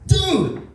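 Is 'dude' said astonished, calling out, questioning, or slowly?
astonished. It is exclaimed in loud astonishment. That is shockingly big. "your dick is way too big"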